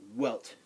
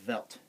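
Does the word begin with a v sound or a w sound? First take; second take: w sound; v sound. First: The word begins with an English w sound. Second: The word begins with an English v sound. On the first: The speaker calls it wrong. "you're gonna want to pronounce it like a W. It's not Welt" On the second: The speaker calls it right. "It's Welt. W's in German are pronounced like V's in English"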